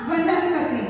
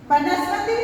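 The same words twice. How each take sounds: First: वनस्पति said starting with v; correct pronunciation. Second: वनस्पति said starting with b; wrong pronunciation. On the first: Teacher gives the correct वनस्पति with a v. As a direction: model वनस्पति with a clear v. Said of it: "इसका सही उच्चारण क्या होगा". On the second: Teacher shows the wrong वनस्पति with a b. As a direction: say वनस्पति as bənaspəti. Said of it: "जबकि इसका सही उच्चारण". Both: Shown as a demonstration.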